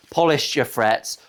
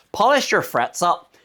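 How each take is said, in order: First: Said in the usual way. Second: "Polish your frets up" with a light Irish lilt, rising at the end; a playful hint of an Irish accent on "Polish your frets up". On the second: Shown as a demonstration. Guitar vlogger joking to viewers, putting on a light Irish accent. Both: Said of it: "You can say it in an Irish accent".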